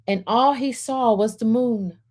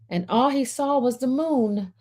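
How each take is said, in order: Both takes have the same delivery.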